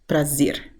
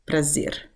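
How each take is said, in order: First: The final R is a clear R sound. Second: The final R is a clear R sound.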